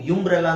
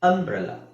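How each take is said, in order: First: The word begins with a 'yu' sound. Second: The word begins with an 'uh' sound. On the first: The speaker calls it wrong. "ಯುಂಬ್ರೆಲ್ಲಾ ಅಂತ ಹೇಳಲ್ಲ" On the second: The speaker calls it right. "ಇಲ್ಲಿ ಅ ಅಂತ ಹೇಳ್ತಾ ಇದೀವಿ"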